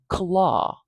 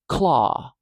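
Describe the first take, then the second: First: A short vowel separates the k and l sounds. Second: The k and l sounds are joined directly. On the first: "it's okay to put a little vowel sound between them" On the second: "It's okay to put that k and the ul immediately next to each other"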